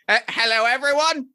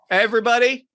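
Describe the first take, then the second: First: It is said in a put-on skeleton voice. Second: It is said in a fairly normal voice.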